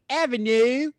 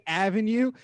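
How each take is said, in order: First: "avenue" loud, high, with fronted final vowel; Baltimore accent. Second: Said in the usual way. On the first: Shown as a demonstration. Demonstrating how locals say "avenue", exaggerated Baltimore accent. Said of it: "literally say that shit". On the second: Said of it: "say avenue".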